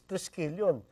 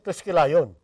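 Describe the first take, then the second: First: The ending sounds like yon with a y. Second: The ending sounds like the word lion. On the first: The speaker calls it right. "Ang pronunciation natin is Triskelion" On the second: The speaker calls it wrong. "we don't pronounce it Triskelion"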